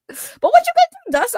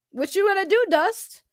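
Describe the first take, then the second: First: "what you gonna do, Dust?" jumped way higher and louder in a put-on squeak; silly squeaky taunt. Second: "What you gonna do, Dust?" as a slightly higher, level-voiced street taunt; the taunt that came out sounding sus; mock threat taunt. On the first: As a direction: undercut the threat with a high cartoon voice. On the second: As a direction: lean into the dare without much push. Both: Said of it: "That sounded awful. That sounded so sus".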